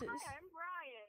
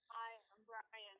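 First: It is said with lively energy. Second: It is said flatly, with little energy.

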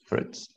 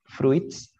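First: The i is silent, giving one syllable. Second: The i is sounded, giving two syllables. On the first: The speaker calls it right. "la I no se pronuncia aquí" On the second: The speaker calls it wrong. "It's not fruits"

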